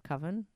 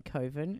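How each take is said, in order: First: Coven said as "cuvven"; short-vowel Coven. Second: Coven said as "coh-ven"; long-o Coven. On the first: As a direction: Coven rhyming with "oven". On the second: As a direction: stretch Coven's first vowel as in "go". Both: Shown as a demonstration. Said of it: "saying Coven instead of Coven".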